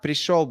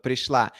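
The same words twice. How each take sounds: First: Пришёл with the masculine -ёл ending, stress on the last syllable; wrong gender ending. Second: Пришла with the feminine -ла ending, stress on the last syllable; correct feminine ending. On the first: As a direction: say пришёл as the mistaken masculine form. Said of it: "it should be пришла". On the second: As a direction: say пришла as the right feminine form. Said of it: "not пришёл, but пришла". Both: Shown as a demonstration.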